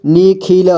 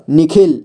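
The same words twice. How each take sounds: First: Nikhil slowly as नि-खि-ल; syllable by syllable. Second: Said in the usual way. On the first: Shown as a demonstration. Teacher showing beginners how to read Nikhil, syllable by syllable. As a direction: sound out each letter of Nikhil. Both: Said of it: "जोड़ जोड़ करके ही पढ़ना होगा".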